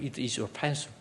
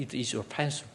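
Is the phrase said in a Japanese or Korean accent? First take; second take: Korean; Korean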